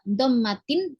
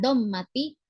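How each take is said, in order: First: The word ends with an added n sound. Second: The word ends on a vowel without n. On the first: The noun has no definite article. The speaker calls it right. "dia dibaca dommatin" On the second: The noun would have a definite article. The speaker calls it wrong. "bukan dommati"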